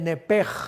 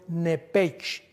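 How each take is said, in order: First: The word ends with a harsh j sound. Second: The word ends with a ch sound. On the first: "se pronuncia como J en el hebreo" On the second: "se escribe literalmente en el hebreo nepech"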